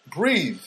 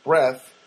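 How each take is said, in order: First: "breathe" with long ee and voiced th; breathe, long vowel. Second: "breath" with short eh and unvoiced th; breath, short vowel. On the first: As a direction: say "breathe" with the final E's long ee sound. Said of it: "There's an E at the end". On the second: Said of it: "which makes it breathe". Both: Shown as a demonstration.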